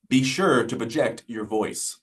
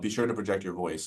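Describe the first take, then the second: First: Spoken carefully, with final consonants crisply pronounced. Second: Spoken quickly, with word endings blurred together. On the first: "it's gonna sound exaggerated" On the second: "that's very quick"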